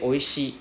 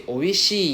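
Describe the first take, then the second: First: Said in the usual way. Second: "oishii" with the final I drawn out; "oishii" ending on a stretched I sound; long final vowel. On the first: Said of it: "Instead of saying". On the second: Shown as a demonstration. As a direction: hold the last I of "oishii" longer. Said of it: "We drag out the I sound".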